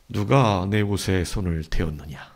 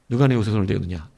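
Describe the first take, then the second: First: The question is spoken at a slow pace. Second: The question is spoken at a medium pace. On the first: "아니면" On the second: "아니면 중간으로"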